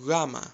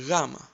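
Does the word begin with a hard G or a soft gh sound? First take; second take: soft gh; soft gh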